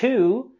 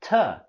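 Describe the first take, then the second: First: The word has a full, clear vowel. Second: The word has a weak, reduced vowel. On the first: "the word to" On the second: "we can use a more reduced form"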